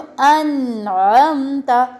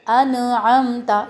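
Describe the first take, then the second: First: The n sound is held steady. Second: The n sound is bounced. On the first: The speaker calls it right. "जिस वक्त इसको रोक के रखना होता है" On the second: The speaker calls it wrong. "ये इस तरह की फील आती है जैसे कलकला में हम हला रहे होते हैं"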